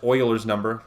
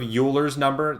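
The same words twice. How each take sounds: First: The first syllable sounds like oil. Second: The first syllable does not sound like oil. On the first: The speaker calls it right. "It's actually pronounced Euler's number, like oil" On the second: The speaker calls it wrong. "they're pronouncing it wrong"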